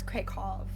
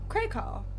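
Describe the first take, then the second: First: The final sound is a v sound. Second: The final sound is a w sound. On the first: The speaker calls it right. "The W's make a v sound" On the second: The speaker calls it wrong. "So it's not Krakow"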